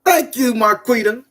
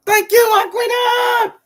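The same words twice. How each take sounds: First: Said in the usual way. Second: High, slow, loud sung-out thanks; shouted sing-song thanks. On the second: Real, not acted. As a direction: belt the thanks up high like a hype call.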